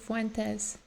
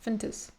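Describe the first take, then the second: First: The name is said with all its vowels. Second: The name is said with its vowels squeezed. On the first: This is the speaker's own preferred way. "I want to pronounce it Fuentes" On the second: This is how the name's owner says it. "He like barely pronounces all the vowels. He just goes Fentes"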